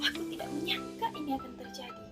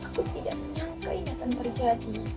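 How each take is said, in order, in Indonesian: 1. Diucapkan dengan nada marah, kasar. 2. Diucapkan dengan nada sedih, lesu. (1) "lalu nada marah" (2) "dengan nada sedih"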